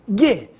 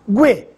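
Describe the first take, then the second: First: The u is silent, with no w sound. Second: The u is voiced as a w sound. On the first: "G mudo" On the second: "gue pronunciado"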